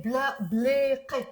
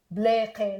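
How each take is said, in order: First: بلاقي with a hard back q sound; with the qaf. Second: بلاقي said blee, no q sound; بلاقي with a long e and the ق dropped; Lebanese pronunciation. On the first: Teacher showing the written qaf in بلاقي. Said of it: "but we don't pronounce it ق". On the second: Teacher giving the Lebanese way to say بلاقي. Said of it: "بلاقي like that". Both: Shown as a demonstration.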